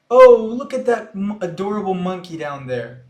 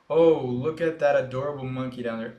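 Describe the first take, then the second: First: It is read with lively, expressive intonation. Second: It is read in a flat, monotone way. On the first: The speaker calls it right. "Eu li com a mesma entonação" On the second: The speaker calls it wrong. "Vocês viram que eu não li"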